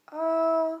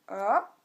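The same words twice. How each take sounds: First: The pitch stays high and level. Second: The pitch rises from middle to high. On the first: "le premier ton est haut et plat" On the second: "le deuxième ton, il monte comme ça"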